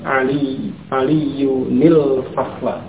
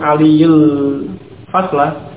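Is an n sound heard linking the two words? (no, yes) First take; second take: yes; no. First: An n sound with an i links the words. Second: The words join directly with no n sound. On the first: The speaker calls it right. "maka ditambahkan nun yang di kasrah antara keduanya" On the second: The speaker calls it wrong. "Bukan langsung aliyul fasla, itu akan menghilangkan tanwin"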